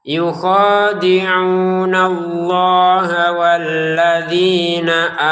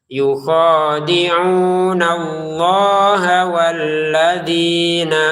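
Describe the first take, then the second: The two takes are said the same way.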